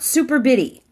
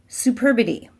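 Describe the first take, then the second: First: It sounds like two words, super and bitty. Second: It is said as one single word. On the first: The speaker calls it wrong. "not super bitty" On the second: The speaker calls it right. "It's superbity"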